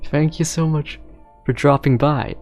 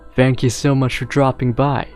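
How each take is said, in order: First: The voice is pitched high. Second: The voice is pitched low. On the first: "I always try to make my voice high" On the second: "Maybe I should make it lower pitch"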